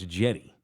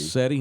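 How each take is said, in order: First: The name begins with a hard J sound. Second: The name begins with a soft S sound. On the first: The speaker calls it right. "now it's Jetty. Just sound, hard J" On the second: The speaker calls it wrong. "I've always called him Seti"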